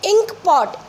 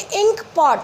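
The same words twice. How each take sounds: First: Ink pot drawn out, ee vowel held; slow ink pot. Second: Ink pot said at normal speed with the ee vowel; plain repeat of ink pot; ink pot again. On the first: Teacher showing pupils the vowel in ink pot. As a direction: say ink pot slowly, stressing the ee. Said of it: "ई, ई की आवाज़ आ रही है". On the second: Teacher repeating ink pot for the class. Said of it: "ई की आवाज़ आ रही है". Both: Shown as a demonstration.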